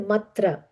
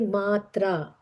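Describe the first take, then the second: First: The vowels are said short. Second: The vowels are said long. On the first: The speaker calls it wrong. "we don't say matra" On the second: The speaker calls it right. "we say matra"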